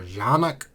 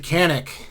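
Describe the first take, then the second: First: The name is said the native way. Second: The name is said the anglicized way. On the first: This is how it is said in its country of origin. "country of origin, it's pronounced Janik" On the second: This is how the maker's people say it at shows. "they pronounced it Canik"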